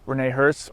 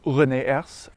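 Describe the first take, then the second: First: The name is said with English-style sounds. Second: The name is said with French-style sounds.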